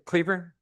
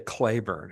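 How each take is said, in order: First: The name is said as Cleburne. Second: The name is said as Claiborne. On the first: The speaker calls it right. "Did I say that right? Cleburne? Okay, thank you" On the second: The speaker calls it wrong. "I have a tendency to say Claiborne, and everybody, no, no, that's not it"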